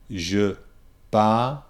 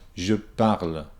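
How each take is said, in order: First: It is said slowly with sounds kept separate. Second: It is said quickly with sounds run together. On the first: "keeping the words, the sounds separate" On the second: "And then speed it up"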